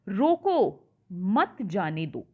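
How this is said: There is a pause right after 'roko'. Stop the person; do not let them go. "यानी उसे रोको, उसे जाने मत दो"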